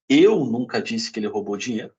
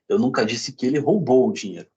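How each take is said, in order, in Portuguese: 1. A ênfase recai sobre a palavra eu. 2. A ênfase recai sobre a palavra roubou. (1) "pode ter sido outra pessoa" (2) "Pode ter pego emprestado"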